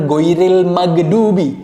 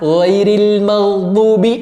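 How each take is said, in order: First: The gh is said as a hard g stop. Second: The gh is a smooth, hiss-free throaty sound. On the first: The speaker calls it wrong. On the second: The speaker calls it right.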